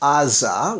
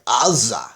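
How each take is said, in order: First: It starts with a plain vowel, no throat sound. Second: It starts with a low guttural throat sound.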